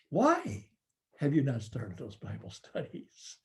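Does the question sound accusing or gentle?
gentle. The question sounds gentle and curious. The leader is invited to reflect on the reasons. The speaker calls it right. "We say to that leader"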